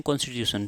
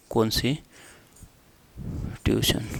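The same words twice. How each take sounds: First: Said in the usual way. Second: कौन सी tuition split by a long pause; broken-up dictation. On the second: Shown as a demonstration. Teacher dictates term in parts. (टुकड़ों में रुक-रुककर लिखवाते हुए)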